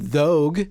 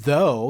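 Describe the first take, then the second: First: The word ends with a hard g sound. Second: The word ends in a vowel, no g sound. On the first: The speaker calls it wrong. "You don't do thogue" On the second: The speaker calls it right. "The G isn't there in though"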